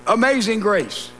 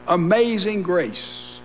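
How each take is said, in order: First: Said in the usual way. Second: A slow, hushed echo of "Amazing grace"; slow, reverent. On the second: Shown as a demonstration.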